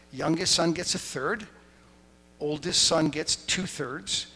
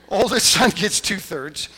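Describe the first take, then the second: First: Said in the usual way. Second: Louder laughing repeat, higher; laughing as it's restated. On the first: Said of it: "Normally when dad dies". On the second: Real, not acted.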